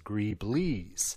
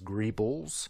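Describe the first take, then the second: First: The word ends with a 'blees' sound. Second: The word ends with a plain 'bulls' sound. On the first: "Some people refer to them as greeblies" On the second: "Some people refer to them as greebles"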